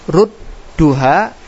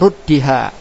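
First: The vowel before the final ha is u. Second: The vowel before the final ha is i. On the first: "boleh dibaca rudduha" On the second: "boleh juga kasro ruddiha"

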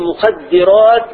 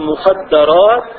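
First: The vowel after the doubled d is i. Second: The vowel after the doubled d is a. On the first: Substances that numb the mind. The speaker calls it right. "وقل مخدرات" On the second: Secluded women who stay at home. The speaker calls it wrong. "ولا تقل مخدرات"

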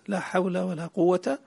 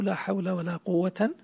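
First: The last word ends in a short a. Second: The last word ends in an. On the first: "الفتح" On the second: "والنصب"

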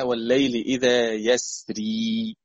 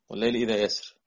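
First: The last word ends with a long ee vowel. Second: The last word ends on the consonant r. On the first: The final ya is kept as an addition to the written text. "هذه الكلمة فيها ياء اسمها والليل إذا يسري" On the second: The final ya is dropped, following the written text. "هنا آخر حرف نطقته راء"

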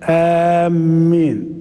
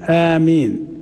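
First: The first vowel is long and the m is doubled. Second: The first vowel is long and the m is single. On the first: The speaker calls it wrong. "والتشديد مع المد" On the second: The speaker calls it right. "بالمد والتخفيف"

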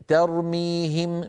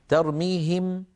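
The two takes are said the same way.

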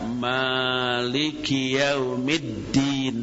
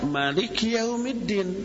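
First: The first vowel of Maliki is long. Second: The first vowel of Maliki is short. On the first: "dengan ma panjang" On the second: "dengan ma pendek"

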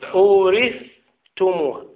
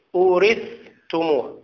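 First: The th sound is pronounced clearly before t. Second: The same.

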